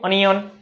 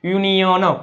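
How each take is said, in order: First: The word starts with an 'uh' sound. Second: The word starts with a 'you' sound. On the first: The speaker calls it wrong. "નથી વાંચતું" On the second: The speaker calls it right. "યુ નો ઉચ્ચાર યુ"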